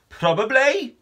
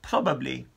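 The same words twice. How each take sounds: First: High, incredulous echo; alarmed question. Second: Said in the usual way. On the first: Acted. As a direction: throw the word back in disbelief. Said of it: "said Con". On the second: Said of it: "said Lilla".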